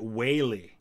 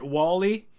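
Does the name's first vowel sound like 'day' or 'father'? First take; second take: day; father. First: The first vowel is an 'ay' sound. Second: The first vowel is an open 'ah' sound. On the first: This is how locals where the ancestor settled say it. "when you go to Connecticut, where he settled, they pronounce it Whaley" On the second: This is the family's habitual pronunciation. "I've always pronounced it Wally"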